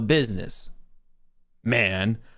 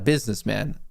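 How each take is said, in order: First: There is a pause before the word man. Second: It is said as one word without a pause. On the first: He is himself a business, addressing someone as man. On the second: He is a man who works in business.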